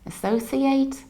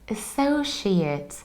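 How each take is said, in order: First: The ending is said like the verb form. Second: The ending is said like the noun form. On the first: The speaker calls it wrong. "We don't say associate or associate because it's not a verb" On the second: The speaker calls it right. "So we need to say associate"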